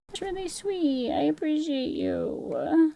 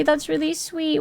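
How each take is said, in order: First: Higher, much softer and slow, like a shy little creature; teeny mock-cute thank-you; tiny cutesy voice. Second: Said in the usual way. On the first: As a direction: coo it softly and slowly in a small high voice. Cutesy voice reading chat.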